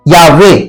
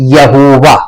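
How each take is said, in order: First: The name is said with two syllables, ya-ve. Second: The name is said with three syllables, ya-ho-va. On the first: The speaker calls it right. "Hebrew में बोलते यावे" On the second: The speaker calls it wrong. "Hebrew में यहोवा नहीं बोलते"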